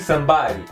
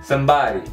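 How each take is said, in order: First: The D sounds like an R and the vowel drops. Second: The D sounds like an R and the vowel drops.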